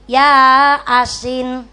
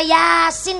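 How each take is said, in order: First: It is split into two words, ya asin. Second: It is said as one word, yasin. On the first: The speaker calls it wrong. "ora yasin tapi ya asin" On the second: The speaker calls it right. "ora yasin"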